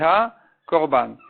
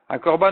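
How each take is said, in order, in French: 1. Il se dit séparé, en deux mots distincts. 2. Il se dit attaché, en un seul mot. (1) "c'est comme s'il disait sur la vie du Korban" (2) "en un mot, ça veut dire le Korban"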